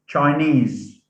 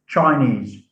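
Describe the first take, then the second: First: The stress is on the last syllable. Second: The stress is on the first syllable. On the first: The speaker calls it right. "So the suffix takes the stress" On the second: The speaker calls it wrong. "not Chinese"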